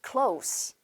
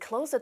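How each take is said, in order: First: The word ends with a hissing s sound. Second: The word ends with a buzzing z sound. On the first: It is the adjective meaning near. "형용사로 활용을 하실 때는 close가 아니라 따라하세요" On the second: It is the verb meaning to shut. "이렇게 z 발음을 하죠. 동사일 경우에는"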